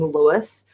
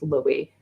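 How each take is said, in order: First: The name is said the American way. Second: The name is said the non-American way. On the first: The speaker calls it wrong. "the pronunciation being Lewis were Americans" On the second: The speaker calls it right. "they're all pronounced Louis"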